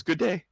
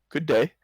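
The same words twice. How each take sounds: First: Much higher, louder, beaming greeting; sudden bright smile. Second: Bright, higher and louder hello; cheery greeting. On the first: Wagon driver beaming back at Ellie, high and bright. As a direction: flash a big smile into it. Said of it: "he smiles brightly suddenly and says". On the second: Ellie cheerfully greeting passing wagon folk, higher and louder. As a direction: call it out friendly. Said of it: "and says". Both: Acted.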